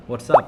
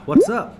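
First: "What's up?" said back loud, level, no rise; loud level reply "What's up?"; answering tune. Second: "What's up?" asked with a high, loud rise; raised pitch on "What's" and a rising end; asking tune. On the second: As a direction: throw "What's up?" out as a bright, rising question. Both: Shown as a demonstration. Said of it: "เป็นการถามและตอบ".

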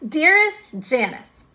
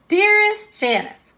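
First: Slow, higher swooning "Dearest Janice"; mock romantic. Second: Much higher and louder, slow "Dearest Janice"; hammed-up swooning. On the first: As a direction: lean into "Dearest", a bit dreamy. Redoing the letter opening. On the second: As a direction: sing out "Dearest" way up high. Redoing the letter opening, bigger.

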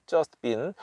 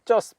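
First: "just been" with the T nearly dropped; swallowed T. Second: "just" with the final T released as its own sound; "just" ending in a separate, sounded T; full-T just. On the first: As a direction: say "just been" as "jus-bin". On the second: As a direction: say "just" with an added vowel after T, "jus-teu". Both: Shown as a demonstration. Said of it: "T가 이제 거의 받침으로 들어갑니다".

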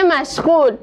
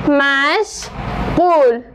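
First: Said in the usual way. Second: مشغول said very slowly, split into two drawn-out syllables. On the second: Shown as a demonstration. Teacher repeating مشغول syllable by syllable, very slow. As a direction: drag out each syllable of مشغول. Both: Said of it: "کلمهٔ مشغول".

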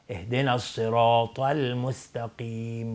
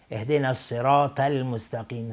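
First: الصراط with a thick emphatic t; slow recitation, full heavy t in الصراط; heavy ta'a. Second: الصراط ending in a thin, light t; ta'a as light t. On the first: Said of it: "نه، اشتباه هستش". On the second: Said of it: "مثل تای دو نقطه تلفظ نکنیم". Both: Shown as a demonstration.

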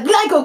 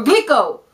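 First: Glico said as GLY-koh; "Glico" rhyming with "psycho"; unsure pronunciation. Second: Glico said as GLEE-koh; "Glico" with first syllable like "glee"; alternative pronunciation. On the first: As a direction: say Glico with a long "eye" vowel. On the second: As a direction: say Glico with an "ee" vowel. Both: Shown as a demonstration. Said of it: "I don't know how to pronounce it".

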